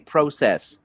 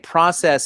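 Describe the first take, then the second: First: The word is said the Canadian way. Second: The word is said the American way. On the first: "you say process" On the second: "we Americans say process"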